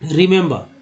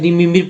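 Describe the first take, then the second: First: The vowels differ, giving 'ri-mem-ber'. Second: Every vowel is said as a short 'i' sound. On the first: The speaker calls it right. "तो क्या पढ़ते हैं इसको आप?" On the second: The speaker calls it wrong. "रिमिम्बिर गलत हो जाता है"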